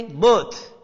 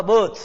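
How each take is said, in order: First: बर्थ as "bot", no r at all; silent r. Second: बर्थ said as "bəth", the r dropped; silent r. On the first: Teacher answering his own question, बर्थ without r. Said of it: "तो क्या बोलोगे". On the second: Teacher modelling बर्थ for pupils, r left silent. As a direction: say बर्थ with no r sound, "bath"-like. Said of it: "ये र तो बोलेगा ही नहीं". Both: Shown as a demonstration.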